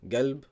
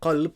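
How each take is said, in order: First: The word begins with a hard g sound. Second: The word begins with a deep q sound. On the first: This is the Saudi dialect form. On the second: This is the standard form.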